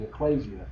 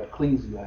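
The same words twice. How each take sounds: First: "ecclesia" with a KLAY middle syllable; pronunciation variant. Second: "ecclesia" with a KLEE middle syllable; alternative pronunciation. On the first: Teacher naming the Hebrew word, "ecclesia" said ek-KLAY-zee-uh. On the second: Teacher offering another way, "ecclesia" said ek-KLEE-zee-uh. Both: Shown as a demonstration. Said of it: "however you want to pronounce it".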